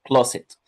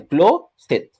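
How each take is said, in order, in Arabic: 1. الكلمة تُنطق بسلاسة كوحدة واحدة. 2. الكلمة مقسّمة إلى مقطعين منفصلين.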